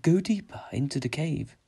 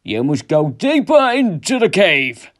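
First: Higher, eerie motherly voice; high, unhurried ghostly summons; mother's voice. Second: Slow, booming, raised command; loud, drawn-out ghostly summons; father's voice. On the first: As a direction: lure him on as a disembodied mother. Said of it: "it sounded like his mother". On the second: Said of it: "it sounded like his father". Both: A narrator's reading.

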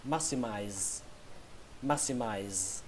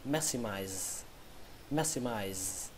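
First: Maximize, lower and softer; maximize, first way; first pronunciation. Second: Maximize, lower and much softer; a quiet second reading of maximize; second pronunciation. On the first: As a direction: model reading of maximize. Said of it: "Từ vựng thứ tư". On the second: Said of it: "Cách đọc thứ hai". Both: Shown as a demonstration.

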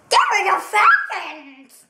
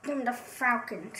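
First: Calls out the pick with force, a hammed-up Falcons claim; louder mock-insistent pick. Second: Softly repeats the pick under his breath; muttered echo. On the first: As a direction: announce it loudly, like a fan's rallying cry. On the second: Pretend. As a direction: toss it off quietly, almost to himself. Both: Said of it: "that's a little strange".

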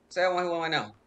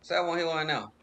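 Both takes have the same delivery.

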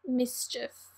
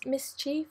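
First: "Mischief" with a short i ending, mis-chif; trying out pronunciation. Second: "Mischief" with a long ee ending, mis-cheef; trying out pronunciation. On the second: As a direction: quietly test "Mischief" as mis-CHEEF, questioning. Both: Shown as a demonstration. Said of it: "how you pronounce that properly".

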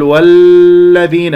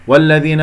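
First: والذين with a long, loud clung-to l; held laam. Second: والذين with a brief doubled l; measured laam. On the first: Teacher shows what not to say, والذين with overheld laam. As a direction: grip the ل of والذين far too long. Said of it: "هكذا اللي يقصد أن يقول مسك". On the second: Teacher models it for students, والذين with short laam. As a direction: pass through the ل of والذين without holding. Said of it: "لا تطل زمن اللام". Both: Shown as a demonstration.

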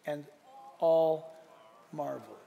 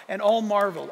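First: AND, ALL, MARVELED each set apart by pauses, dropping low; spaced-out words. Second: Said in the usual way. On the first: Shown as a demonstration. Preacher savouring the best part of the verse, spaced-out words. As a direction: land "and ... all ... marveled" word by word, softening at the end. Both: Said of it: "three words".

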